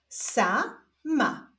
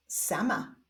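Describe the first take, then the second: First: Stretched first syllable, pause, then second; drawn-out, divided syllables; syllable reading. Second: Said in the usual way. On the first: Shown as a demonstration. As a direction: read it slowly as two separate syllables. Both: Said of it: "zapraszam Was do odczytywania sylab".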